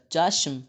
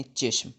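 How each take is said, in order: First: چاشم with an open "a": CHASH-m; contrasting open vowel. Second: چشم said "CHESH-m"; e vowel. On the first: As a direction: stress چاشم on a wide "a". (چاشم، زیر کی جگہ زبر کے ساتھ) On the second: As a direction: give چشم an "e" after ch. (چشم، چ کے نیچے زیر) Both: Shown as a demonstration. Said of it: "چے کے نیچے زیر لگائیں".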